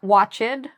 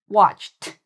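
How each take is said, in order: First: The ending is not a plain t sound. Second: The ending is a plain t sound. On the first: The speaker calls it wrong. "Not watched" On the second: The speaker calls it right. "this is actually the T sound"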